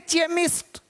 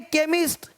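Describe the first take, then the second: First: The word begins with a ch sound. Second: The word begins with a k sound. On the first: The speaker calls it wrong. "अब इसको चेमिस्ट नहीं पढ़ेंगे" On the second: The speaker calls it right. "Sound आपको केमिस्ट"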